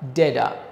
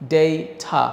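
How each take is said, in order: First: The first vowel is 'ay' with a soft d-like t. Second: The first vowel is 'ay' with a clear t. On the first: The speaker calls it wrong. "আমেরিকানরা ঠ এর জায়গায় ড দিয়ে বলে" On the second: The speaker calls it right. "এটার উচ্চারণ হচ্ছে ডেইঠা"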